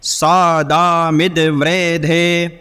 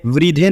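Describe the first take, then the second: First: वृद्धे chanted as "vre-de", not "vri-dhe"; वृद्धे as व्रे, the Vedic way; correct pronunciation. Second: वृद्धे spoken as "vri-dhe", the wrong way; वृद्धे as the incorrect reading; wrong pronunciation. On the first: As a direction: sing वृद्धे with a short "vre". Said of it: "व्रे, इस तरह से उच्चारण होगा". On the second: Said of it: "वृद्धे नहीं पढ़ना है". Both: Shown as a demonstration.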